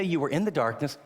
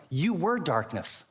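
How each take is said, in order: First: Said in the usual way. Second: "were" leaned on, said slowly; slow, pressing on "were" in You were darkness; You were darkness, with weight on "were"; stress on were. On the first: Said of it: "He doesn't say". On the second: Shown as a demonstration. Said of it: "He doesn't say you were in the darkness".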